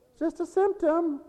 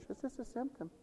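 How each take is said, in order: First: High mock preacher voice; mocking other preachers. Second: Very soft, dismissive mock quote; mocking other preachers. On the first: Mocking preachers who call it just a symptom, high mock quote. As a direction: lampoon the false teaching. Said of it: "That's the kind of preaching". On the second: Mocking preachers who deny illness, soft dismissive quote. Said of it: "And people preach".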